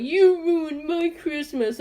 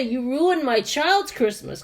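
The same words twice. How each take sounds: First: Raised pitch, slow drawn-out complaint; mock angry yell. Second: Put-on "child's" leaned on, drawn out, without the yell; slow it slightly and weight the word "child's"; stress on child's. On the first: Irate man to a poor salesperson, mock yell. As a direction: imitate an irate customer, stretching every word. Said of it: "he's yelling". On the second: Quoting what the customer never said, stress on "child's". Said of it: "he didn't even say".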